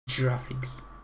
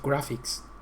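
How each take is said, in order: First: It starts with a soft J sound. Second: It starts with a hard G sound. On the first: The speaker calls it wrong. "not graphics" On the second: The speaker calls it right. "is graphics"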